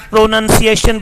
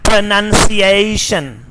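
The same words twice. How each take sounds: First: "pronunciation" starting "pro", with pure "eh"; Pakistani pronunciation. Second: "pronunciation" starting "pruh", with gliding "ay"; British pronunciation. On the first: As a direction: say pronunciation as "pro-nun-see-eh-shun". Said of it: "Not pronunciation". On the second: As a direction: say pronunciation as "pruh-nun-see-ay-shun". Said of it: "but pronunciation". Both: Shown as a demonstration.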